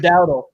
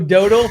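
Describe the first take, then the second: First: The name ends with an L sound. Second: The name ends in a plain vowel sound. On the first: The speaker calls it right. "for Dowdle" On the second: The speaker calls it wrong. "You're saying Rico Dodo for Dowdle"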